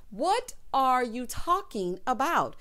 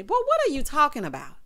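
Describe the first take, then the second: First: Slow, drawn-out "What are you talking about"; slow puzzled repeat. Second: Louder, higher "what are you talking about"; baffled outburst; exasperated. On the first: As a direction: drag it out in disbelief. Repeated slower. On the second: Exasperated at his riddles. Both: Real, not acted.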